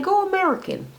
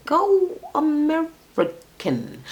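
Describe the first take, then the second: First: Said in the usual way. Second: "American" broken into drawn-out syllables, high; slow emphasis. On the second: Shown as a demonstration. Host urging him off foreigners, "American" slowly stretched out.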